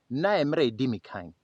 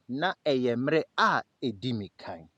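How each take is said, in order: First: It is said at normal speed. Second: It is said very slowly.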